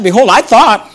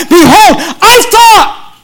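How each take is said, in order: First: Said in the usual way. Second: Mad and angry. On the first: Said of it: "look at verse eleven". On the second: Acted. Preacher voicing angry Naaman to the congregation, indignant and high. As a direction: act out an angry man's protest, pitched high and slow. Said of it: "he's mad and angry, and he says".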